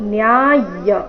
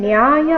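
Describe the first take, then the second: First: The y sound is pressed and doubled. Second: The y sound is short and single. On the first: The speaker calls it right. "ಅದೇ ರೀತಿ ಇಲ್ಲಿ ಯಕೆ ಯದ್ ಒತ್ತಿದೆ" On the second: The speaker calls it wrong. "ಇಲ್ಲಿ ಶಬ್ದ ನ್ಯಾಯ ಅಂತ ಇಲ್ಲ"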